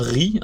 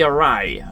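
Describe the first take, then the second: First: The name is said with an 'ee' vowel. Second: The name is said with an 'eye' vowel. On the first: The speaker calls it wrong. "J'appelais ça Ri" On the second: The speaker calls it right. "En fait, ça se dit rail"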